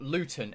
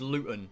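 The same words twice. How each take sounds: First: The middle T is clearly pronounced. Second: The middle T is dropped. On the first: The speaker calls it wrong. "There's not Luton Airport" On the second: The speaker calls it right. "we commonly drop T's in England"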